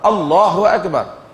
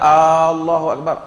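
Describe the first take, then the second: First: The opening vowel of Allahu is kept short. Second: The opening vowel of Allahu is drawn out. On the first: It states that God is great. The speaker calls it right. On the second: It asks whether God is great. The speaker calls it wrong. "Bukan Allahu Akbar"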